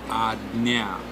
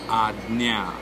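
The two takes are said the same way.

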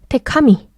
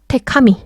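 Both takes have the same delivery.

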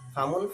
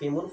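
First: The first syllable has the vowel a. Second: The first syllable has the vowel i. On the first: The speaker calls it right. "জবর দেওয়াটা হলো আফসহ" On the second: The speaker calls it wrong. "জের"

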